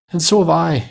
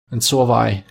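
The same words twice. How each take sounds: First: Put-on higher, eager child chiming in; eager exclamation. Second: A touch of eager agreement; mildly eager cry. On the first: Another child joining in after Peter, high eager exclamation. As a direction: pipe up high in agreement. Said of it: "exclaimed another". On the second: Peter agreeing with his mother, mildly eager cry. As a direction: chime in, lightly eager. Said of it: "cried Peter". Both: A narrator's reading.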